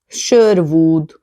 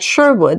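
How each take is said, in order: First: It is said with a Hungarian-style pronunciation. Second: It is said with a normal English pronunciation.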